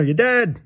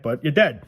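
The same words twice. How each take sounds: First: "dead" hit much higher, falling hard; stress on dead. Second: Said in the usual way. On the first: Real, not acted. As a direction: say "dead" high and final, then drop. Repeating the point, pitch jumps.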